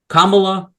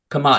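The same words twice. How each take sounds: First: Kamala with stress on the first syllable KAH; Kamala stressed on the first syllable, said a bit louder; KAH-mah-lah. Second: Kamala with stress on the middle syllable MAH; Kamala stressed in the middle, quick and short; kah-MAH-lah. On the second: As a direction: say Kamala as ka-MAH-la, clipped at the end. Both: Shown as a demonstration. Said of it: "if it's Kamala or Kamala".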